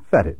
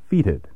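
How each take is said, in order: First: The first vowel is a short E. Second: The first vowel is a long E. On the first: This is the American pronunciation. "In American English, we spell it F-E-T-I-D and prefer a short E" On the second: This is the British pronunciation. "That's the British spelling and pronunciation"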